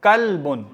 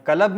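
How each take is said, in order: First: कल्बुन with L closing the first syllable; silent-vowel lam. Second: कलब with a short A inserted after L; vowelled lam. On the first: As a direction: say कल्बुन as kal-bun, no vowel after L. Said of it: "इसका लाम भी साकिन है". (کَلْبٌ، ساکن لام کے ساتھ) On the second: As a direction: say कलब in two syllables, ka-lab. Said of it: "कलब नहीं पढ़ेंगे". (کَلَب، لام پر حرکت کے ساتھ) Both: Shown as a demonstration.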